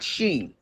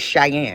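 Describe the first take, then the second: First: The name is said as one syllable, sheen. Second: The name is said as two syllables, shy-ann. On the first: The speaker calls it wrong. "You know how people say Sheen? It's not Sheen" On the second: The speaker calls it right. "It's Cheyenne"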